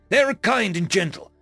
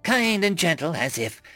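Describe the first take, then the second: First: Higher, sincere insistence; earnest defense. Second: Scornful echo. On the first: Alien defends humans to disbelieving captain, earnest. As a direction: vouch for them earnestly. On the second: Captain sneers at alien's defense, scornful. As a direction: throw the phrase back with derision. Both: A narrator's reading.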